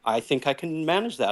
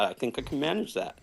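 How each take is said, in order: First: Said in the usual way. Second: Softer, trailing-off repeat; quiet repeat. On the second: Shown as a demonstration. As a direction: mumble it again, unsure. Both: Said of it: "It's extra scary when I say".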